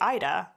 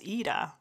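First: The name begins with an 'eye' vowel sound. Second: The name begins with a different vowel sound. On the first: This is how others say the name. The speaker calls it wrong. "a lot of people say Ida" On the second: This is how the owner says the name. The speaker calls it right. "But I pronounce it as Ida"

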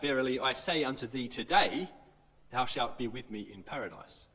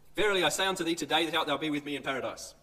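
First: The pause comes right after 'today'. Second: The pause comes right after 'thee'.

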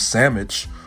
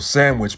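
First: The word has a dialect pronunciation. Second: The word has a standard pronunciation. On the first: "becomes sandwich" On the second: "certain words would just change"

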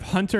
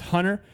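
First: The middle t sound is clearly pronounced. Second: The middle t sound is dropped. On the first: "Instead of Hunter" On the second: "it's very hard for us to say T's ... Or in the middle"

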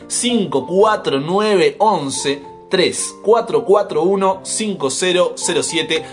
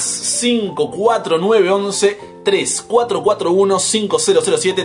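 First: The number is read more slowly. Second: The number is read at normal speed.

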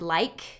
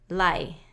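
First: The final k sound is pronounced. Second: The final k sound is dropped. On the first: The speaker calls it right. "the word like" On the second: The speaker calls it wrong. "it would be lie"

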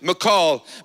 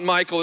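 First: The name is said with a sound like macaw. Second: The name is said like the common name Michael. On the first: The speaker calls it right. "It's like you would say a macaw" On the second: The speaker calls it wrong. "It's not Michael, as most would pronounce it"

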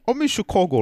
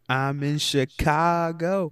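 First: It is said in a put-on British accent. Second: It is said in the speaker's normal accent.

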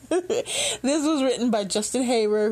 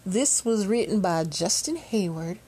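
First: It is said in an English accent. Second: It is said in an American country accent. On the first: The speaker calls it right. "I should be doing this in an English accent" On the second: The speaker calls it wrong. "my sudden country accent"

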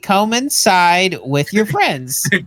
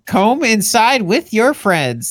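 First: The first word sounds like come. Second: The first word sounds like comb.

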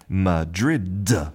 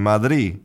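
First: The final D sound is clearly pronounced. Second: The final D sound is dropped completely. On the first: "practice keeping that final consonant" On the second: "that final D is just not pronounced"

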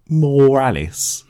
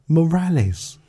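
First: The name is said so it sounds like 'more Alice'. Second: The name is said as Morales, without 'Alice'. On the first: The speaker calls it wrong. "Not Morales. The world does not need more Alice" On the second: The speaker calls it right.

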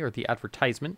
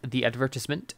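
First: The word is said the American way. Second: The word is said the British way.

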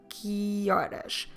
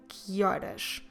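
Both takes have the same delivery.

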